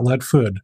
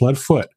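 First: The name ends with a D sound. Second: The name ends with a T sound. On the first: The speaker calls it wrong. "not Leadfood" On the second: The speaker calls it right. "It is a T in Leadfoot"

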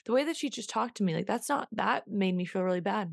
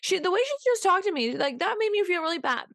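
First: It is said in a grown-up, composed voice. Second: It is said in a whiny, childlike voice.

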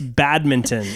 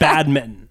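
First: The word is pronounced fully to the end. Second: The end of the word is cut short. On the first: The speaker calls it right. "It's badminton" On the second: The speaker calls it wrong. "She doesn't finish the word, nor does she say it properly"

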